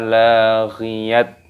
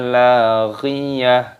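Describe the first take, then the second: First: The word ends with a t sound. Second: The word ends with an h sound. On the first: The speaker calls it wrong. "bukan tasma'u fiha laghiyat, bukan seperti itu" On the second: The speaker calls it right. "berubah menjadi huruf H. Cara membacanya la tasma'u fiha laghiyah"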